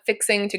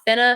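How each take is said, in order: First: Both words are said fully and separately. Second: The two words are blended into one. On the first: "I'm fixing to go to the store" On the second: "blurring or blending two words together"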